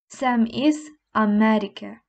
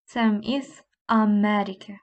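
No difference in how they are said.

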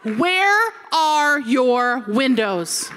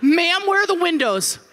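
First: Very slow, drawn-out demand; slow, deliberate mock desperation; emphatic question. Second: High, urgent mock panic; frantic appeal to a guide; panicked demand. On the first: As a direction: stretch out every word for comic emphasis. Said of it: "I asked the lady". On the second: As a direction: blurt it out in acted desperation. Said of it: "and then the panic".

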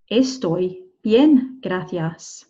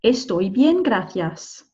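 First: "Estoy bien, gracias" with gaps between words; drawn-out "Estoy bien, gracias" for learners; slow word-by-word model. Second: Said in the usual way. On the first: Shown as a demonstration. Teacher repeats slowly, word by word. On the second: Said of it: "we might want to add on".

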